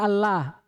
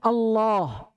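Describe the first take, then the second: First: The L in Allah is thin and light. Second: The L in Allah is thick and heavy. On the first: The speaker calls it wrong. "Tidak ada" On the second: The speaker calls it right. "Yang ada itu"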